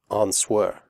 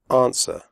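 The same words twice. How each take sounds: First: The W sound is pronounced. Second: The W sound is silent. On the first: The speaker calls it wrong. "Do not say" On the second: The speaker calls it right. "The W sound is silent"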